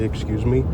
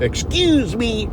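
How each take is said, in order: First: It is said in a polite tone. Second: It is said in a rude tone.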